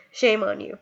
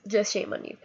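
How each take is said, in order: First: Said in the usual way. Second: Much softer, almost to herself; quiet repeat. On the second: Real, not acted. Scolding fighters at Relay for Life, dropping to a soft repeat. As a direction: let it drop low and soft.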